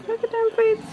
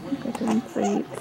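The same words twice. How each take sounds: First: High, sing-song coo. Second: Said in the usual way. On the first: Real, not acted. High cooing repeat.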